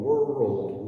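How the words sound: The two parts are blended into one word. "just put them together"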